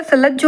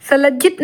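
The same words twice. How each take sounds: First: Said in the usual way. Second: सलज्जित ending in -it; wrong form. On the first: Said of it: "सलज्ज होता है". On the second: Shown as a demonstration. Teacher rejects a misspelling, सलज्जित ending in -it. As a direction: add -it to end सलज्जित. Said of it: "सलज्जित नहीं होता".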